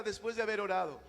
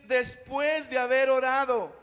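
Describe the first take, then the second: First: Said in the usual way. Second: Louder, slow, stressing "Después de haber orado"; emphatic verse reading. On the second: Shown as a demonstration. Pastor reading the verse for the congregation to repeat, emphatic and slow.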